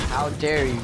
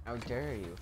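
First: Louder, huffy how dare you; mock indignation. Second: Much softer, deflated how dare you; muttered how dare you. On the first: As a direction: play the offended noble. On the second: Pretend. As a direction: say it under your breath. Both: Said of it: "I'm about to say".

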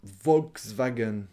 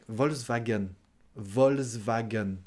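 First: Slow Volkswagen with its k, "volks-va-gen"; K pronounced. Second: Volkswagen as "vols-va-gen", k dropped; French pronunciation. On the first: Teacher echoes the full car name, K sounded. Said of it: "On prononce pas le K". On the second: Teacher demonstrates the silent K, French pronunciation. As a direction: leave the k out of Volkswagen. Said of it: "On prononce pas le K en français". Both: Shown as a demonstration.

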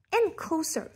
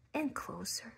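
First: Suspense climax. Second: Whispered and much softer; hushed suspense. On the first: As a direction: burst out on the last closer. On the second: Narrator creeping the bird closer, hushed whisper. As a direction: drop to a tense whisper. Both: A narrator's reading. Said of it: "narration building suspense".

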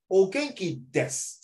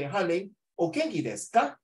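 First: Slow "O genki desu", raised then falling on desu; reply intonation. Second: "o genki desu ka" higher, rising on ka; question intonation. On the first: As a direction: draw it out and close desu with a fall. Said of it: "Han Ling, you will reply". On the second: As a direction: lift ka high at the end to ask. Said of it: "The desu ka means a question mark". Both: Shown as a demonstration.

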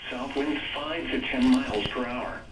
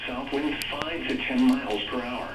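The two takes are said the same way.

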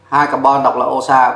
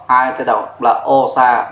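First: Said in the usual way. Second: Slow naming. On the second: Shown as a demonstration.

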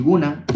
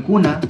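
First: Guna with a voiced G; spoken form. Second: Kuna with a K; written form. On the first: Teacher restates the ending guna as pronounced, with a G. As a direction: say "guna" starting on a G. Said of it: "que se pronuncia ñawiguna". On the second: Teacher names the plural ending kuna as written, with a K. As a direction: say "kuna" starting on a hard K. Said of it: "el guna". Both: Shown as a demonstration.

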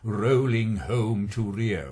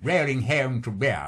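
First: "rolling home to Rio" with long rounded received vowels, slow; correct RP diction. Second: "rolling home to Rio" with a Scots accent; a student's Scottish "rolling home to Rio" before correction; Scots vowels. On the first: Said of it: "I had to say like that rather than". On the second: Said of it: "rather than". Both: Shown as a demonstration.

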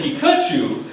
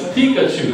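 First: PIKACHU with stress on the middle syllable; imitated mispronunciation. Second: PIKACHU punched on the opening syllable; first-syllable stress. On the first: Evaluator quoting the speaker's version, second-syllable stress. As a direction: say Pikachu as "pee-KAH-choo". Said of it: "you said Pikachu". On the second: Shown as a demonstration. Evaluator correcting the emphasis, first-syllable stress. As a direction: say Pikachu as "PEE-kuh-choo". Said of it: "on the first syll".

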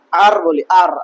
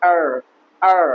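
First: আর with open "aa" and sounded r; full "aar" for আর; usual local pronunciation. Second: আর with a softened English r; corrected pronunciation. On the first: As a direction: say আর the Bangla way. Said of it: "এটা আমরা". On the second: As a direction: say আর without tapping the r. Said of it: "আসলে এটা আর না". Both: Shown as a demonstration.

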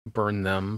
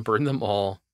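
First: Said in the usual way. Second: Sinister whisper. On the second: Pretend. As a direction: breathe it like a villain. Playful villainous follow-up, whispered.

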